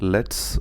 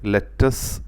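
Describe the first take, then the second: First: It is said as a single syllable. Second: A vowel splits it into two syllables. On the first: The speaker calls it right. "അത് ഉച്ചരിക്കേണ്ടത് ലെറ്റ്സ് എന്നാണ്" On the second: The speaker calls it wrong. "ഒരിക്കലും ലെറ്റസ് എന്ന് പറയരുത്"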